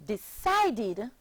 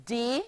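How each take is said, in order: First: Said in the usual way. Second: "Decided" broken into de, ci, ded with pauses; syllable by syllable. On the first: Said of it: "becomes the past tense verb". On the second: Shown as a demonstration. Teacher shows pupils three syllables, "Decided" split syllable by syllable. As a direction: say "Decided" as three separate beats. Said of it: "forming three syllables".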